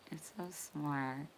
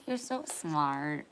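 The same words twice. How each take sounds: First: Soft unvoiced whisper; whispering praise to the chat. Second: Said in the usual way. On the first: Real, not acted. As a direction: breathe it like a secret. Praise then whispered repeat.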